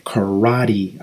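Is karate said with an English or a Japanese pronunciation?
English. It is said with a native English pronunciation. "notice how native English speakers say karate"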